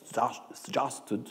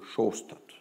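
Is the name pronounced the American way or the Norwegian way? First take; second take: American; Norwegian. First: The name is said with an American pronunciation. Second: The name is said with a Norwegian pronunciation. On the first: "les Américains disent Shasted" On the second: "les Norvégiens disent Sjostad"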